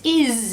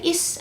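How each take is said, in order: First: The word ends with a buzzing z sound. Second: The word ends with a hissing s sound. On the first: The speaker calls it right. "It is a zzz sound" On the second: The speaker calls it wrong. "we don't say is"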